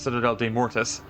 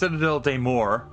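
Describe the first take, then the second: First: The last word is said as two syllables. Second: The last word is said as one syllable. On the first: The speaker calls it wrong. "I had been pronouncing it wrong this entire time. I thought it was Citadel des Mortis" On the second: The speaker calls it right. "it was pronounced Citadel des Morts"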